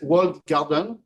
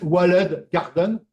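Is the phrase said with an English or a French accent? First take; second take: English; French. First: It is said with an English accent. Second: It is said with a French accent. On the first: "je vais vous la prononcer à l'anglaise" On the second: "à la française"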